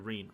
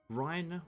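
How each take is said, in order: First: The name rhymes with 'seen'. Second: The name rhymes with 'fine'. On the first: The speaker calls it right. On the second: The speaker calls it wrong. "I keep on pronouncing it as Rhine in my head"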